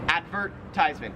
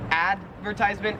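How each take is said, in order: First: The vert syllable carries the stress. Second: The vert syllable is not stressed. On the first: "there's more emphasis on the vert part" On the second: "in American English, we would say advertisement"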